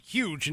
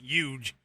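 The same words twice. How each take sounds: First: The word begins with an H sound. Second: The word begins with a Y sound. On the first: "It's going to put huge" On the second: "That's Y U G E"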